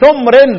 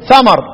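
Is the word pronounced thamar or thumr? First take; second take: thumr; thamar. First: A u vowel, and the m has no vowel. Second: Both syllables have an open a vowel. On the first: This is another recognized reading of the word. "قراءة ابو عمرو" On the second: This is one recognized reading of the word. "يبقى عاصم يقرأ إيه؟"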